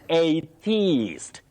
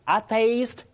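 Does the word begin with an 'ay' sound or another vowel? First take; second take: ay; another vowel. First: The word begins with an 'ay' vowel sound. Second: The word begins without an 'ay' vowel sound. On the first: The speaker calls it right. "You say a at the beginning" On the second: The speaker calls it wrong. "many people innocently say atheist. Atheist, no"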